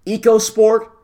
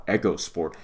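First: EcoSport said as "eeko-sport"; long EE opening EcoSport, high and loud; pronounced as spelled. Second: EcoSport said as "echo-sport"; short E opening EcoSport, as in "echo", said low and soft; maker's pronunciation. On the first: Host questioning the name as it is spelled, EcoSport as "eeko-sport". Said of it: "spelled the way that it's said". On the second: Telling listeners what they like to call it, EcoSport as "echo-sport". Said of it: "as they like to call it". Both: Shown as a demonstration.

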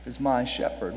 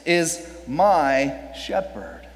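First: Quieter, lower echo with stress on my; hushed repeat; soft echo. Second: Slow, stress on my; drawn-out emphasis on my. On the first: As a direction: repeat it softly, almost to yourself. Softer echo. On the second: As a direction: lean on my, slowly. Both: Shown as a demonstration.

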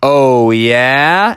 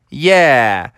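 First: "Oh, yeah?" drawn out with a rising tune; "Oh, yeah?" as a slow, rising challenge; challenging question. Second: "Yeah" drawn out with a falling tune; "Yeah" as a falling, final reply; firm answer. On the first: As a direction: stretch "yeah" and swing it up at the end. Froggy challenges the weatherman in story. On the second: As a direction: let "Yeah" drop firmly at the end. Weatherman answers the challenge. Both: Acted.

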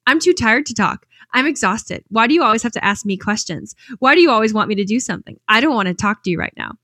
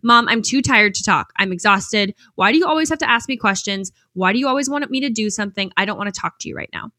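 First: Mimicking son. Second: Tired son snapping at his mom, mild mock anger; angry teen answer. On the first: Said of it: "She goes". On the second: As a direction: retell the son's annoyed outburst lightly. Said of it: "angrily answered".

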